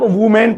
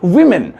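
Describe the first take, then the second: First: The first syllable sounds like 'woo'. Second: The first syllable sounds like 'wi'. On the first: The speaker calls it wrong. "ना इसे वुमेन पढ़ना है ना बोलना है" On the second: The speaker calls it right. "सही तरीके से बोलिए विमेन"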